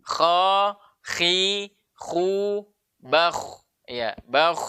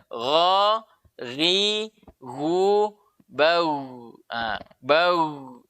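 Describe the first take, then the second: First: KHA, KHI, KHU, BAKH with breath hissing through the kh; flowing-breath kh. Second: GHA, GHI, GU, BAU with gh as a voiced throat sound, held long; voiced ghain, no breath. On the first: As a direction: let the breath run on at the end of BAKH. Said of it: "mengalir sua-, napas". (kha, khi, khu, bakh, napas mengalir) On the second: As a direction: voice flows through the gh, no breath escaping. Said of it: "Dia tidak mengalir napas". (gha, ghi, gu, bau: suara mengalir, napas tidak) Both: Shown as a demonstration.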